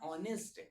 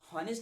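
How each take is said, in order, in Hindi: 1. शब्द की शुरुआत सीधे स्वर की आवाज़ से होती है। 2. शब्द की शुरुआत में साफ़ h की आवाज़ है। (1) "इसे पढ़ते हैं ऑनेस्ट, क्योंकि भाई साहब एच यहाँ पर जो है वो साइलेंट है" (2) "हॉनेस्ट नहीं पढ़ा जाता"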